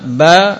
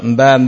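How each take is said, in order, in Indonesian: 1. Suku kata langsung diawali dengan 'b'. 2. Ada bunyi 'm' sebelum 'b'. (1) "Yang benar" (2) "Jangan ditambah M seperti orang Jawa"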